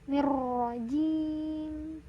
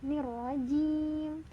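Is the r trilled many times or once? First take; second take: many times; once. First: The r is trilled many times. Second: The r is trilled only once. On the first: The speaker calls it wrong. "Tidak boleh" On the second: The speaker calls it right. "Idealnya itu satu kali saja"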